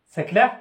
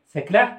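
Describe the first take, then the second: The two takes are said the same way.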